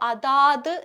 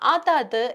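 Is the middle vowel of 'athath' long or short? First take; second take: long; short. First: The middle vowel is drawn out long. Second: The middle vowel is kept short. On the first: The speaker calls it wrong. "ആവശ്യമില്ലാത്ത അകാരം കയറി വരേണ്ട" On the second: The speaker calls it right. "അതത് എന്നുള്ള രീതിയിൽ ഉപയോഗിച്ചാൽ മതിയാകും"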